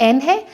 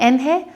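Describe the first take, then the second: No difference in how they are said.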